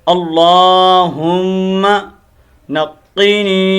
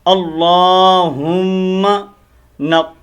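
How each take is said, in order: No difference in how they are said.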